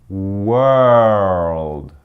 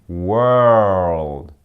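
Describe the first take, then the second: Both takes have the same delivery.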